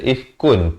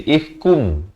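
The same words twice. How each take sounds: First: "ifkun" ending on a clear n; sebutan asal ifkun. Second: "ifkum" with final n turned to m; jadi ifkum. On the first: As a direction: say "ifkun" with the n unmerged. (sebut "ifkun" dengan bunyi n jelas) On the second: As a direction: close the lips on a humming m in "ifkum". (sebut "ifkum" dengan bunyi m berdengung) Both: Shown as a demonstration. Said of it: "Datang mim jadi ifkum".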